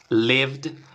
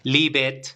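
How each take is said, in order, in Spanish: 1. La terminación es un solo sonido de consonante d. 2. La terminación se dice como una sílaba separada. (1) "está sonando con una D" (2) "no se pronuncia, digamos, live it"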